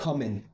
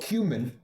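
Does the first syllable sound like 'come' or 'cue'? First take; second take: come; cue. First: The first syllable sounds like 'come'. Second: The first syllable sounds like 'cue'. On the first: The speaker calls it wrong. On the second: The speaker calls it right.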